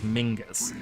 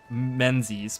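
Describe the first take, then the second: First: The name is said with a g, Mingus. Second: The name is said as it is spelled, Menzies. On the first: This is how the name is actually pronounced. "it's actually pronounced as Mingus" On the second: This follows the spelling of the name. "phonetically it would be like Menzies"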